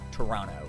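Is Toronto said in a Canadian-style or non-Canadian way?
Canadian-style. It is said the local Canadian way. "I'm just used to saying Toronto"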